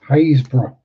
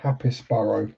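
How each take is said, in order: First: It is said as 'Haysborough', with no 'pis' sound. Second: It is said as 'Happisborough', sounding every letter. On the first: This is how locals say the name. The speaker calls it right. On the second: This is how an outsider would read the name. The speaker calls it wrong.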